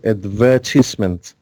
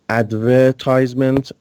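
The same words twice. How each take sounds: First: It is said with a British pronunciation. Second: It is said with an American pronunciation. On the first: "British people say advertisement" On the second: "American people uh, say advertisement"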